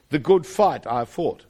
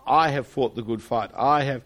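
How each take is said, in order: First: "The good fight" put first and weighted, said slowly and a bit louder; slow down and lean on "good fight", not on "I"; stress on the good fight. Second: "I" leaned on at the start, a bit louder; stress on I. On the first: Preacher showing the Greek order's weight on good fight. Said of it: "but the, the Greek actually is". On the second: Preacher showing the English stress on "I". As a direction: push the weight onto "I" as in the English wording. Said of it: "The, the emphasis of our translation in English inevitably is upon I". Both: Shown as a demonstration.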